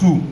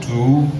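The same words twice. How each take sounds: First: The word is said on a high tone. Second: The word is said without a high tone. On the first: The speaker calls it right. "this one is high tone, so pronounce" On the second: The speaker calls it wrong. "not two"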